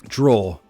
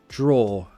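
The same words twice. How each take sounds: No difference in how they are said.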